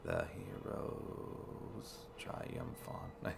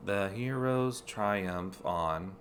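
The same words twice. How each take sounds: First: Whispered slowly and softly; whispered haiku. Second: Slow, counted syllables; haiku reading. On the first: Player whispering the haiku line slowly to himself. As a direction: breathe "The hero's triumph on" in a slow whisper. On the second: Player reading game text as a haiku, slow and syllable by syllable. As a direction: read "The hero's triumph on" as a haiku, counting each syllable slowly. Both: Shown as a demonstration. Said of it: "Is that a haiku?".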